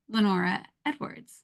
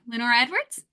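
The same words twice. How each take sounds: First: The pitch falls at the end, like a statement. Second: The pitch rises at the end, like a question. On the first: The speaker sounds confident. The speaker calls it right. "there's a confidence and a pause" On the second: The speaker sounds unsure of herself. The speaker calls it wrong. "my voice would go up as if I'm leaving a question mark on it"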